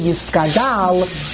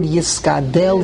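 First: The last syllable has an 'a' vowel. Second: The last syllable has an 'e' vowel. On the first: It follows the Aramaic form of the word. The speaker calls it right. "change it to Aramaic" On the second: It follows the Hebrew form of the word. The speaker calls it wrong. "written in Hebrew, with a tseri"

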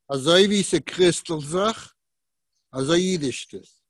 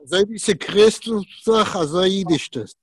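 First: It is said slowly. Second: It is said at normal speed.

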